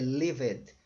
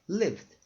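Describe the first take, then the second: First: The ending is said as an extra syllable. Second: The ending is said as a plain d sound. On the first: The speaker calls it wrong. "Senão eu falaria, falaria lived" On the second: The speaker calls it right. "sem o E"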